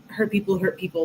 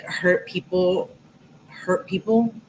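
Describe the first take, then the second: First: Said in the usual way. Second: Hurt people said slowly, each word weighed; slow quoted saying. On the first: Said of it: "I get those vibes, like". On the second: Shown as a demonstration. Quoting a familiar saying about hurt people, slow and deliberate. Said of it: "You know that quote".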